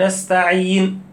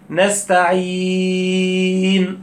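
First: The long vowel before the final n lasts two counts. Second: The long vowel before the final n lasts four counts. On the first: "نستعين اتنين" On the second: "نستعين اربعة"

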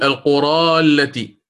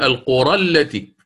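First: The final vowel of the first word is long. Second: The final vowel of the first word is short. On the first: The speaker calls it wrong. "لا أقول" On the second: The speaker calls it right. "أقول ... يحذف لفظا"

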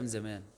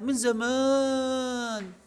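First: The word زمان is said at normal length. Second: The word زمان is stretched out and drawn long. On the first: It happened a month or two ago. "يعني ايه، من شهر شهرين حاجة زي كده" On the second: It happened a very long time ago. "ما زودناش أي حاجة خالص، بس حسيتي من زمان"

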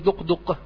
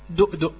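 First: The consonants are deep q sounds. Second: The consonants are glottal stops. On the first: "ولا أقول دقدق" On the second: "فهكذا الآن أنا أقولها دؤدؤ"

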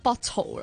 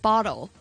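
First: It is said in a British accent. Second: It is said in an American accent. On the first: "即係你唔係讀緊bottle 咯" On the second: "譬如你如果係美國口音啦，like bottle"

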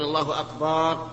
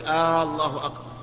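First: The vowel after the b is drawn out. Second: The opening vowel of Allah is drawn out. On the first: "أن يمد الباء" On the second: "أن يمد الهمزة"

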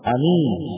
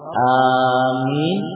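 First: The first vowel is kept short. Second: The first vowel is drawn out long. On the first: "dengan kasar" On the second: "dengan mad"

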